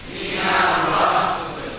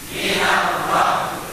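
No difference in how they are said.

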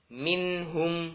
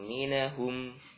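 First: The n runs straight into the h. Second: An extra vowel sits between n and h. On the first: The speaker calls it right. "dibaca dengan jelas" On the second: The speaker calls it wrong. "Bukan minahum"

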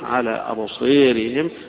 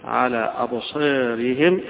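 First: The long vowel before r is raised toward e. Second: The long vowel before r is slightly raised. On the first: "والإمال" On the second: "والتقليل"

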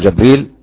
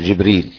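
First: The first vowel is a short a. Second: The first vowel is a short i. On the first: "فتح الجيم" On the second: "والباقي كحفص"

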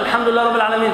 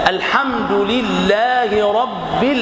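First: The doubled consonants are cut short. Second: The doubled consonants are held long. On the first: The speaker calls it wrong. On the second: The speaker calls it right.

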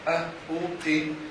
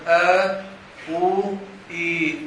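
First: The vowels are short, without lengthening. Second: The vowels are lengthened into long vowels. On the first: "يذكر له الحرف بالفتح والضم والكسر" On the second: "ثم يذكر له مع المد"

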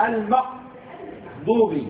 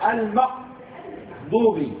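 First: The middle consonant is a hard q sound. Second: The middle consonant is a hard q sound.

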